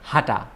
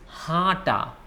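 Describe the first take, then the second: First: The first vowel is plain, not nasal. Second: The first vowel is nasal, through the nose. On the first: The speaker calls it wrong. "It's not hata" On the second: The speaker calls it right. "your pronunciation should come from your nose"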